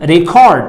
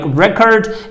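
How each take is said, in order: First: The stress is on the second syllable. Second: The stress is on the first syllable. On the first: It is used as a verb. "as a verb, I need to pronounce the word record. I need to have the uh, second uh, the secondary stress" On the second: It is used as a noun. "As a noun, I need to pronounce it like record"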